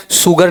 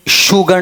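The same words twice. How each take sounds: First: "शुगर" with a plain s and final r; wrong s version. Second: "शुगर" with a full sh and final r; wrong full sh. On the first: Teacher ruling out a mistake, said with s. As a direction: say "शुगर" as "suggar". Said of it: "शुगर नहीं". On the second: Teacher ruling out a mistake, said with full sh. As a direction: say "शुगर" higher, as "shoogar". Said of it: "हल्का शंकर वाला, पूरा नहीं". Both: Shown as a demonstration.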